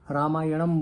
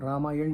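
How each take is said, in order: First: The word ends with an added 'am' syllable. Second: The word ends on the 'n' sound. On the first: "कुछ लोग रामायणम बोलते हैं" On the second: "कुछ लोग रामायण बोलते हैं"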